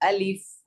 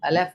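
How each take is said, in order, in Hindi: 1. शब्द की हर आवाज़ साफ़ बोली जाती है। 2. शब्द की कुछ आवाज़ें पूरी तरह नहीं बोली जातीं। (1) "चारों को जाहिर करना है" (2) "अलिफ नहीं"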